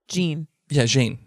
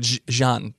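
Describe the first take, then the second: First: The name has an English pronunciation. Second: The name has a French pronunciation.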